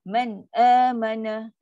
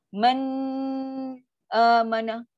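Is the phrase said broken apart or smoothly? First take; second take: smoothly; broken. First: The words flow together without a break. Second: The sound breaks apart between the words. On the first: The speaker calls it right. "Dia mesti man amana" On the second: The speaker calls it wrong. "dia akan macam terputus. Suara dah putus"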